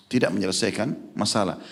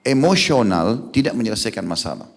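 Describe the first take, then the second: First: Quieter repeat, "Tidak" leading; softer echo. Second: "Emosional" punched at the start, falling after; stress on emosional. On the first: Preacher echoing his point quietly to the listeners. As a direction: drop the voice and lean on "Tidak". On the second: Preacher warning husbands about anger, stressing emosional. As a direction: open hard on "Emosional". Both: Shown as a demonstration.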